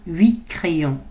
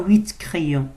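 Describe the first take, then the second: First: The final T of huit is silent. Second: The final T of huit is pronounced. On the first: The speaker calls it right. "On ne prononce pas le T. Devant consonne" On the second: The speaker calls it wrong. "On ne dit pas huit crayons"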